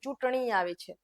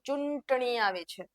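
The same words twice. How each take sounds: First: The nasal is pronounced softly on the vowel. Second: The nasal is pronounced strongly and separately. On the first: The speaker calls it right. "તમે એમ જ કહો" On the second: The speaker calls it wrong. "તમે એમ ન કહો કે"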